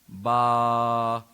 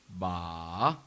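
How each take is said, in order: First: The pitch stays level and flat throughout. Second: The pitch dips down then comes back up. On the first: "the flat tone, the monotone" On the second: "that goes down and comes back up"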